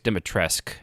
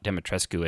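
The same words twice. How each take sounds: First: The name is said in a French-influenced way. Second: Every letter of the name is fully pronounced. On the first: This is how the game itself says it. The speaker calls it right. "as they say it in the actual game" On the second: This is how non-French speakers have been saying it. The speaker calls it wrong. "just enunciating every letter"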